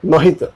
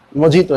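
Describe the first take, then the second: First: मोहितो with h in place of j; correct pronunciation. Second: मोजीतो with a hard j sound; wrong pronunciation. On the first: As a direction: say मोहितो as "mo-hee-to". (मोहितो में ज की जगह ह) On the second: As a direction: say मोजीतो as spelt, "mo-jee-to". (मोजीतो में साफ़ ज की आवाज़) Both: Shown as a demonstration. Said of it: "मोजीतो नहीं".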